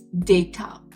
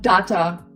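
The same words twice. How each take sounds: First: The first vowel sounds like day. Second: The first vowel does not sound like day. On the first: The speaker calls it right. "it's data. So D A, it's D A Y" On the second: The speaker calls it wrong. "But it's not data"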